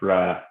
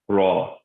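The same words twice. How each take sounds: First: The R is light and thin. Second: The R is heavy and full-mouthed. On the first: The speaker calls it wrong. "that won't work" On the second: The speaker calls it right. "you're always going to pronounce it with tasfeen"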